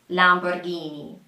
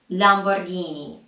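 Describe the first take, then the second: Both takes have the same delivery.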